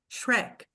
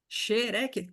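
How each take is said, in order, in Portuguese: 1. A palavra tem uma sílaba. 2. A palavra tem três sílabas. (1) "só é uma sílaba" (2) "todo mundo fala com três sílabas essa palavra"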